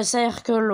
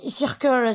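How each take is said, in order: First: Circle said as "sa-air-kol"; second pronunciation attempt. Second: Circle said French-style as "seer-keul"; unsure pronunciation. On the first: Gamer retrying an English name, Circle as "sa-air-kol". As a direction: try Circle with an open "sa-air" start. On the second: Gamer unsure of an English name, Circle as "seer-keul". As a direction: try Circle with an "ee" in the first syllable. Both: Real, not acted. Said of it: "je sais pas comment ça se prononce".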